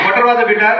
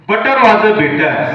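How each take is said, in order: First: It is said faster still. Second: It is said at a normal speed.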